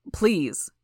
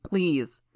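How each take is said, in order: First: Louder, urgent begging; desperate plea. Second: Said in the usual way. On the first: Acted. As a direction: push the plea harder. Father begs again, harder.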